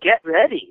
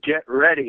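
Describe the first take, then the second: First: It is said in a light, ordinary tone. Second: It is said in a serious, powerful tone. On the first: This is the delivery one would normally expect. "I'm expecting" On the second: Something intense is about to happen. "like whoa, like that's different"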